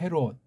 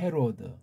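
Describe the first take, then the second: First: The name ends with a clipped final consonant. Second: The name ends with a full extra syllable. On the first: Korean uses a final consonant instead of a vowel. "우린 또 종성이 발, 발달돼 가지고 헤롯 그러는 거예요" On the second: This is how other writing systems render the name. "얘 이름을 헤로드 그러는 거예요"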